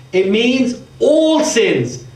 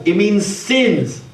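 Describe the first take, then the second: First: "all" drawn out slowly, then falling; stress on "all". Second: Said in the usual way. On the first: Shown as a demonstration. Preacher explaining that the plural covers every sin, stressing "all". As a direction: lean slowly on the word "all". Teacher contrasting two readings of plural.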